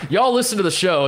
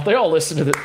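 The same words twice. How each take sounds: First: "y'all" punched and higher, falling tune; stress on y'all. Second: Said in the usual way. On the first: Real, not acted. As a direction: lean on "y'all" as the joke. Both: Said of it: "I, I'm bringing it up now".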